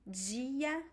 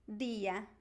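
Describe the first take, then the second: First: The d sounds like 'dj' before the i. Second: The d is a plain d before the i. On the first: This is the most common Brazilian pronunciation. "the most common one is dia" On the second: This is how people in Recife say it. "in Recife, they say dia"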